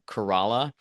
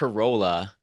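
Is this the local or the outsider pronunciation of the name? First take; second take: local; outsider. First: It is said the way local people say it. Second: It is said the way outsiders say it. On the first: The speaker is from the area. The speaker calls it right. "place called Corolla" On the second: The speaker is not from the area. The speaker calls it wrong. "they know you're not from around there"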